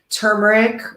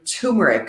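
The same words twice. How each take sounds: First: The r after the first vowel is pronounced. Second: The r after the first vowel is dropped.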